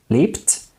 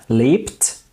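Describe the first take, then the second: No difference in how they are said.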